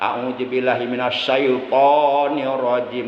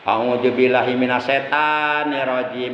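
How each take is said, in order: First: The devil word is pronounced like syaiton. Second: The devil word is pronounced like setan. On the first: The speaker calls it right. "harus syaiton" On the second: The speaker calls it wrong. "jangan setan berarti"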